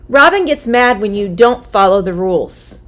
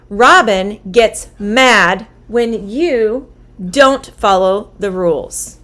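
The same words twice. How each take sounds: First: The sentence is said at a faster pace. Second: The sentence is said at a slower pace.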